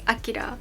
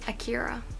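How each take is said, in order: First: The name is pronounced the Japanese way. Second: The name is pronounced the Western, English way. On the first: "The Japanese pronunciation is" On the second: "I guess Western pronunciation is"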